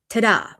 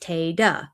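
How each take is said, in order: First: The first vowel sounds like 'ah' in father. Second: The first vowel sounds like 'ay' in day. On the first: The speaker calls it wrong. "not ta-da" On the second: The speaker calls it right. "Tata is pronounced Tay-da"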